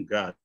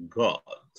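First: GOD with an open American ah vowel; American pronunciation. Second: GOD with a rounded British o; British pronunciation. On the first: Teacher shows students the American version, American GOD. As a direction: say God like "gahd". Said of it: "Kalau American". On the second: Teacher contrasts accents for students, British GOD. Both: Shown as a demonstration.

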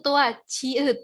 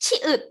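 First: Name ชีอึด clearly for the students, with the long ชี vowel; letter name said carefully. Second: ชิอึด with a short ชิ, pitched higher and louder; contrasting letter name. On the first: Teacher naming the letter ชีอึด for her class, careful and clear. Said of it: "ตัวนี้คือตัวชีอึด ในขณะที่ตัวนี้คือตัว". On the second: Teacher contrasting ชิอึด with ชีอึด, short and raised. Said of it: "ในขณะที่ตัวนี้คือตัว". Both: Shown as a demonstration.

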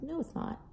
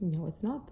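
First: Imitating a child. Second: Said in the usual way. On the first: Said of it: "And they're like". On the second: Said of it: "they're saying".

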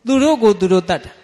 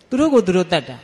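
First: A preacher driving home the point; emphatic declaration. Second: Said in the usual way. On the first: Shown as a demonstration. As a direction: ring out the answer သူတို့ကိုသူတို့တတ်တာ with force.

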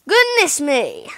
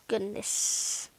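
First: Louder, slow exclamation of dismay; exclaimed dismay. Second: Unvoiced, softer sigh of dismay; breathed dismay. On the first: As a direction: call it out in disbelief. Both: Real, not acted. Reacting to money draining.

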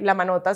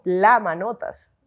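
First: Said in the usual way. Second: "la" drawn out before Manotas; slow, weighty LA, as if a title: "la Manotas"; stress on LA. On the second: Shown as a demonstration. Nickname turned into proud title. (énfasis alargado en "la", como un título)

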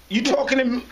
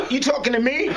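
First: Said in the usual way. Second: Higher, defiant shouted challenge; challenging shout. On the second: Retold or imitated. Narrator shouts back at the cop, defiant and raised.

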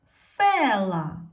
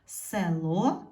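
First: Села with a loud, drawn-out stressed Е; stress on first syllable. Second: Село with the final О stressed and rising; stress on last syllable. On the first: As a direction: punch the Е in села, then fall. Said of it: "ненаголошена е стала наголошеним". (сильний наголос на Е у слові села) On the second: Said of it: "Наголос падає на о". (наголос на О в кінці слова Село) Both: Shown as a demonstration.

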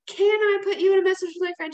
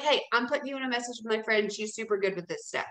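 First: Hesitant question pitched higher and louder, "Can" leaned on; timid asking. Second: Quick, matter-of-fact announcement; just tell them, don't ask; confident statement. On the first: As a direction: ask it like you're begging permission. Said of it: "don't ask and say". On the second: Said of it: "Just be like". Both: Shown as a demonstration.

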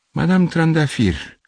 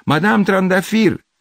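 First: High, drawn-out name; slow, pitched-up realisation; sudden exclamation. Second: Very high, loud, long-drawn call; urgent drawn-out holler; shouting a name. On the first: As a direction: exclaim as a memory strikes. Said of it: "exclamă el". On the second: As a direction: yell up at a neighbour's window. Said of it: "strigă". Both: A narrator's reading.

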